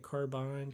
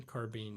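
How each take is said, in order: First: "carbine" ending like mine; carbine as car-bine. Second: "carbine" ending like bean, softer; carbine as car-been. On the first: Streamer takes turns with pronunciations, carbine as car-bine. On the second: Streamer takes turns with pronunciations, carbine as car-been. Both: Shown as a demonstration. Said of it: "I'll take turns calling it".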